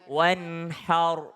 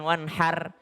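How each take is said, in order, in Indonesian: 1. Bunyi r-nya berat dan tebal. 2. Bunyi r-nya ringan dan tipis. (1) "ro-nya tetap tebal" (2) "Jangan wanhar"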